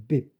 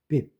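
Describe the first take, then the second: No difference in how they are said.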